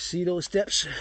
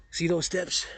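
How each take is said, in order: First: Said in the usual way. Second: Hushed, breathy whisper; softly whispered aside about the steps. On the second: Shown as a demonstration. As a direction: whisper it like a secret. Repeats the same line whispered.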